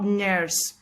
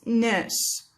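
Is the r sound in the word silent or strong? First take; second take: strong; silent. First: The r sound is pronounced strongly. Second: The r sound is not heard. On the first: The speaker calls it wrong. "It's not nurse" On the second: The speaker calls it right. "It's nurse"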